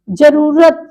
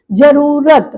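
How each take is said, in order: First: जरूरत with quick ru; short middle vowel. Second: जरूरत with rū drawn out; long middle vowel. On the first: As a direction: say ja-ru-rat for जरूरत. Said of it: "यहाँ छोटे ऊ की लगी". (जरूरत में छोटा उ) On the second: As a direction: hold the rū in जरूरत. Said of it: "यहाँ क्या हो जाएगी?". (जरूरत में लंबा ऊ) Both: Shown as a demonstration.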